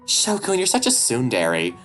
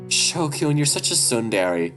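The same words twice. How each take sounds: First: It is said in a cutesy, boyish voice. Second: It is said in a plain voice.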